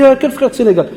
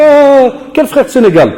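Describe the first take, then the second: First: High-pitched indignant question; mock outrage. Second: High, loud outraged cry of surprise; shocked outburst. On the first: Teacher retelling the pupil's offended question. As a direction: replay the pupil's offended cry. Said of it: "Il m'a dit". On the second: Retold or imitated. Teacher imitating a pupil's shocked outrage. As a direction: jump up in pitch, offended and startled. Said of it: "Il fait".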